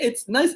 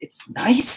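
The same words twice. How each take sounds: First: High, doubtful repeat of nice; wife echoing husband's weak praise; mock incredulous echo. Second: Incredulous whisper; shocked hushed repeat. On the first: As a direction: echo his word back, unconvinced. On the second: Retold or imitated. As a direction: breathe it out in disbelief. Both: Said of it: "She's like".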